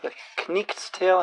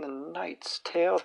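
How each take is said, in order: First: The K at the start is pronounced. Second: The K at the start is silent.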